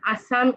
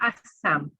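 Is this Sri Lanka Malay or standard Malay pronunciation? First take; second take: standard; Sri Lanka. First: The middle consonant is single, standard Malay. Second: The middle consonant is doubled, Sri Lanka Malay.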